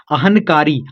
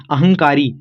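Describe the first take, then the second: First: अहनकारी with a clear n before kaari; letter-by-letter reading. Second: अहंकारी with nasal ng before kaari; joined correct reading. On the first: Teacher piecing the word together, clear n in अहनकारी. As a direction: say अहनकारी as ahan plus kaari. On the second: Teacher giving the real word, ng sound in अहंकारी. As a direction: blend अहंकारी as ahang-kaari. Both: Shown as a demonstration. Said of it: "ऐसे हो रहा है ना".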